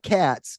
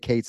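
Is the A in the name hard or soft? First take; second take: hard; soft. First: The A vowel in the name sounds hard. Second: The A vowel in the name sounds soft. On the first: The speaker calls it wrong. "not Katz" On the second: The speaker calls it right. "her A in her name is soft"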